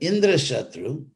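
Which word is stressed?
Indra. The accent falls on Indra. Indra will be the mortal enemy of this person. The speaker calls it wrong. "he said Indra Shatru instead of"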